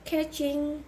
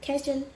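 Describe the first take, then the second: First: The word ends with a full ng sound. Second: The word ends without the final g sound.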